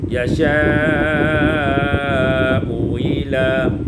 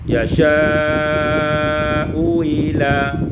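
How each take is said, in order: No difference in how they are said.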